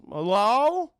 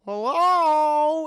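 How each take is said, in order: First: Loud, raised questioning call. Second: Very loud, high, drawn-out call; bigger calling out. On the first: Man knocking on the castle door, calling out. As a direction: call into an empty hall. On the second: Man at the castle door, hollering out. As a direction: holler it long into the depths. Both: Retold or imitated.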